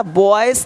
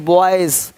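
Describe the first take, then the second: First: Put-on "बॉयज" said as boys with hissed s; "बॉयज" with s in place of z; wrong s ending. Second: Put-on "बॉयज" as boyz, falling at the end; "बॉयज" ending in a light buzz. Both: Shown as a demonstration. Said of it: "बॉयज नहीं".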